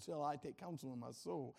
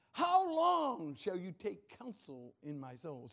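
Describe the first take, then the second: First: Said in the usual way. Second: Slow, emphatic cry on "How long"; David crying out. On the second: Acted. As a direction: proclaim the psalm as an anguished plea. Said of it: "Can you imagine David saying that".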